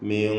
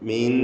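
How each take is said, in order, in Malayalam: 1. സ്വരം ഭാരവും നിറവും ഉള്ളതായി തോന്നുന്നു. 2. സ്വരം ലഘുവും മെലിഞ്ഞതുമായി തോന്നുന്നു.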